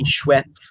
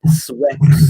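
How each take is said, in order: First: Said in the usual way. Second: "Schweppes" said as "Swepps", no sh sound; "Schweppes" as co-host says it, "Swepps"; mispronounced Schweppes. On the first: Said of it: "it's supposed to be Schweppes". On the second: Retold or imitated. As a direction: imitate a slip, "Schweppes" starting with a plain s. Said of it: "I know he said".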